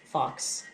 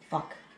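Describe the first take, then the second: First: The word is said clearly as fox. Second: The word is said sounding like fuck. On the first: "one time he pronounced it fox" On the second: "the other times it's been fuck"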